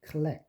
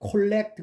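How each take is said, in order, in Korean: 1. 첫 번째 모음은 schwa로 약화됩니다. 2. 첫 번째 모음은 완전한 O 소리입니다. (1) "액센트가 없는 음절에서는 이게 슈어가 돼서" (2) "그러면 안 돼요"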